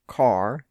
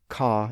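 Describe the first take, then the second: First: The final R sound is clearly pronounced. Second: The final R sound is dropped. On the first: This is a rhotic accent. "If you pronounce the R sound in words like here and car and carpenter" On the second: This is a non-rhotic accent. "if you tend to drop those R sounds, so if you say"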